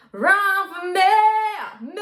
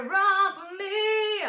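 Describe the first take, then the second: First: High, loud sung "me" with a darkened vowel. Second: High sung "me" with a bright E; bright vowel. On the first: Retold or imitated. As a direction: sing "me" like "meh". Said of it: "So she goes". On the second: Shown as a demonstration. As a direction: sing "me" with an open, bright E. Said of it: "She doesn't go".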